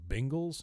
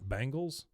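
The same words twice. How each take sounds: First: The first syllable sounds like 'ben'. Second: The first syllable sounds like 'bang'. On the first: The speaker calls it right. "learn how to say the word Bengals" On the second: The speaker calls it wrong. "not Bengals"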